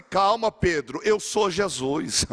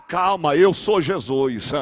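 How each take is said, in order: First: Calm reassurance. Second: Slow calm reassurance. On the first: Jesus calming Pedro. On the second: Jesus calming Pedro again. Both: Acted.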